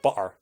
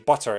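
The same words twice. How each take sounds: First: The T is replaced by a glottal stop. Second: The T is clearly pronounced. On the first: The speaker calls it wrong. "instead of butter" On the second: The speaker calls it right. "instructed by my uh, you know English mother to always say butter"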